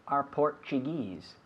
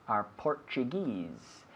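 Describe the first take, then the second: The two takes are said the same way.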